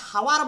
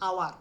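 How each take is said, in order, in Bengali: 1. শব্দটি একটি স্পষ্ট h ধ্বনি দিয়ে শুরু হয়। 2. শব্দটি স্বরধ্বনি দিয়ে শুরু হয়, কোনো h নেই। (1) "এটাকে হাওয়ার বলে না" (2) "এইচ এর মতো আসছে না"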